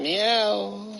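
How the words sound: The meow sounds angry, like a hostile cat.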